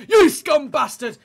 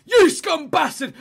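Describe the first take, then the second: First: Slow, loud terrace bellow; mock angry shout again. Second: Slow, high, loud hammed-up abuse; mock angry shout. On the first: Fan jeering a former rival's player, loud mock shout. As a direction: hammer the insult home. Repeat of the jeer. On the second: Fan jeering a former rival's player, mock furious shout. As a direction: bellow it like a terrace insult.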